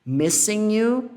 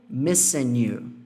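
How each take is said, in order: First: "Missing you" said slowly, pitch higher at the end; slow "Missing you" rising on "you"; missing you, first variant. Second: "missing you" said slowly and falling; missing you, second variant. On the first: Teacher contrasting two ways of saying "Missing you". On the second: Teacher contrasting two ways of saying "missing you". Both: Shown as a demonstration. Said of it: "Levemente diferente".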